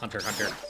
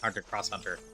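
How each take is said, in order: First: Nothing is said between the two words. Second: The word cross is said between the words. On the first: The speaker calls it right. "It's just" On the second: The speaker calls it wrong.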